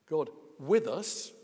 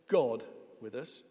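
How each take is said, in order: First: The stress falls on the word with. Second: The stress falls on the word God. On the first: God is alongside people as one of them. "Yes, one of us" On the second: It is God himself who is present. "Yes, God himself"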